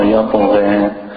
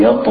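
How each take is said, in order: First: YATGHA ending in a light "ghe"; thin the last vowel of yatgha; thin gha. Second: YATGHA ending in a heavy, open "ghah"; thick gha. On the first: Teacher asking about the letter, thin ending on yatgha. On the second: Teacher asking about the letter, thick ending on yatgha. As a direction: round out the end of yatgha. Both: Shown as a demonstration. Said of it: "That's the thick one".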